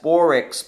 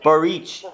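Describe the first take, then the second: First: The surname is read as English spelling suggests. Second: The surname follows the native Hungarian pronunciation. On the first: The speaker calls it wrong. "the English spelling is like B O R I C S" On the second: The speaker calls it right. "So Boric"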